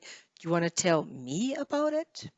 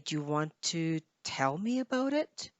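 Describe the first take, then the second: First: The stress falls on the word me. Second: The stress falls on the word tell. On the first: "maybe you want to stress me" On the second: "tell is probably the key word that you want to stress here"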